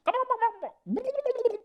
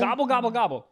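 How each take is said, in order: First: Very high, gargled sped-up gobble; drowning turkey gobble. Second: Gobbling like a turkey; turkey impression. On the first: Retold or imitated. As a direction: gobble like someone drowning, fast. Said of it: "sounds like somebody's drowning, but sped up". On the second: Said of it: "that's a good turkey impression".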